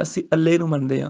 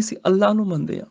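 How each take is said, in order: First: ਅੱਲੇ said as alle, wrong; ਅੱਲੇ with an e ending in place of Allah. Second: ਅੱਲਾਹ with a doubled l and a long a ending in h; right Allah. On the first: Teacher shows students the wrong ਅੱਲੇ. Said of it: "ਕੋਈ ਨਹੀਂ ਮੁਸਲਿਮ ਕਹਿੰਦਾ". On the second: Teacher shows students the right ਅੱਲਾਹ. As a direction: say ਅੱਲਾਹ fully, Persian style. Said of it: "ਨਹੀਂ". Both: Shown as a demonstration.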